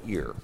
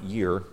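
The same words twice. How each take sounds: First: "ear" starting straight on the vowel; corrected word EAR. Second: "year" with an opening y glide; mistaken word YEAR. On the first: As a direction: say "ear" with no y sound in front. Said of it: "not year, but ear". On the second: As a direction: say "year", starting on a clear y sound. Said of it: "Give, not year, but ear". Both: Shown as a demonstration.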